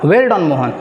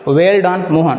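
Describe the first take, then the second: First: It is said with strong, exclaiming feeling. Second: It is said plainly, without strong feeling.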